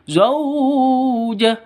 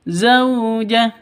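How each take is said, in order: First: The vowel is drawn out long. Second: The vowel is short and soft. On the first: The speaker calls it wrong. "yang dipanjangkan itu salah" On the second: The speaker calls it right. "Yang betul"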